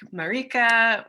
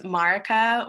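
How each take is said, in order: First: Marika stressed in the middle, muh-REE-kuh; alternative pronunciation. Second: Marika stressed on the first syllable, MAR-i-ka; first pronunciation variant. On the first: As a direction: say Marika with a long, higher REE. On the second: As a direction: say Marika as MAH-ruh-kuh. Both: Shown as a demonstration. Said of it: "for pronunciation is totally fine".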